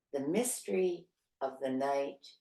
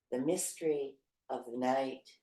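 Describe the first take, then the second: The two takes are said the same way.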